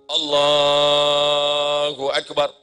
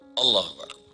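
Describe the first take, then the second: First: The phrase is drawn out long. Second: The phrase is said short and quick.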